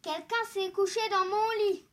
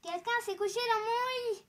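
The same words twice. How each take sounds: First: It is said in a big, deep voice. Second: It is said in a medium voice.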